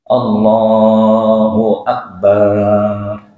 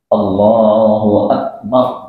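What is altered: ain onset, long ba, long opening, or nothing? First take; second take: long ba; nothing. First: The ba sound in Akbar is drawn out long. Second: Every sound is kept short and unaltered. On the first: The speaker calls it wrong. "Baknya dibaca panjang. Nggak boleh juga" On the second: The speaker calls it right. "Harus sesuai"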